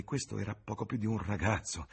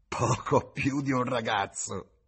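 First: Said in the usual way. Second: Slow, higher, louder mocking repeat; sneering echo. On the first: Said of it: "James describes the young man". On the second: A narrator's reading. Tavern woman mocks James's words with a slow sneer. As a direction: throw his words back with a sneer. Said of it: "sogghignò".

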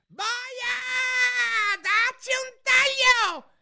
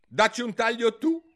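First: Very high, drawn-out royal shriek; furious scream. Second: High, loud, determined retort; very loud, decisive. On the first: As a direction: scream the order in a rage. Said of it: "urlò". (urlo rabbioso) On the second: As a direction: shout it back at the queen firmly. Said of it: "disse Alice a voce molto alta e decisa". (voce molto alta e decisa) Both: A narrator's reading.

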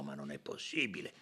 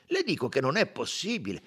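First: Very low, soft dismay; muted disbelief. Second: Higher, firmer protest; insist, voice lifting well up; insistent disbelief. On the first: Company director stunned by another connection, muted dismay. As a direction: murmur it in disbelief. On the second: Company director refusing to believe it, insistent. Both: A narrator's reading.

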